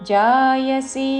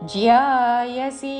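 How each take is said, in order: First: The first syllable is a plain ja sound. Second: The first syllable has a y glide: jya. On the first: The speaker calls it wrong. "జాయసి అనకూడదు" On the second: The speaker calls it right. "జాకి యావత్తుతో"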